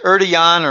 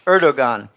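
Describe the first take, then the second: First: The name is said closer to Turkish. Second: The name is said as spelled in English. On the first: The speaker calls it right. "I hear it's Erdogan or something like that" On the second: The speaker calls it wrong. "I'll just pronounce it how it looks in English"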